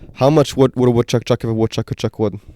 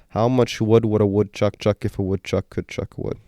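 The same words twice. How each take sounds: First: It is said at a faster pace. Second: It is said at a slower pace.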